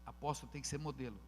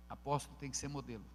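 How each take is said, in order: First: "ser" leaned on, rest quicker; stress on ser. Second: "Apóstolo" hit first and firm; stress on apóstolo. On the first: Pastor to church, weight on "ser". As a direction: press the word "ser" and hurry past. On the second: Pastor to church, weight on "Apóstolo". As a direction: open by punching "Apóstolo". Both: Shown as a demonstration.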